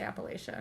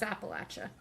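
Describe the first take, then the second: First: Appalachia with LAY in the middle; unfamiliar pronunciation. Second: Appalachia with LATCH in the middle; correct local pronunciation. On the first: Quoting what was never heard growing up, Appalachia said appa-LAY-shuh. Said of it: "Never heard anyone say". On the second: Correcting co-hosts on the mountain range, Appalachia said appa-LATCH-uh. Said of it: "Yeah, that's incorrect". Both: Shown as a demonstration.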